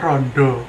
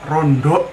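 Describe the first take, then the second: First: The word ends on a plain vowel. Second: The word ends with an added k sound.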